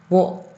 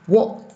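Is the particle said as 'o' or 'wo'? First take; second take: wo; wo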